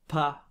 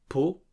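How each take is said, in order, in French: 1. La voyelle est un A net et ouvert. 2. La voyelle est un O net. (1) "c'est pas pas non plus comme en français, parce qu'on n'ouvre pas la bouche pour articuler le A" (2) "c'est pas po"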